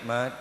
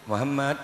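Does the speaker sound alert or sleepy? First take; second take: sleepy; alert. First: The word shrinks to one drowsy syllable. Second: The full word is said with normal energy.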